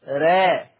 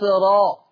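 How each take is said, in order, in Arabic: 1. صوت الراء رقيق وخفيف. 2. صوت الراء سميك وثقيل. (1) "أما ورش" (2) "هذه هي الراء المفخمة عند حفص"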